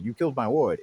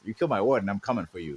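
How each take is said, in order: First: Said in the usual way. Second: Lower, quick mock Batman threat; low fast threat. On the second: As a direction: growl the threat out lower and faster. Batman voiced, threat repeated.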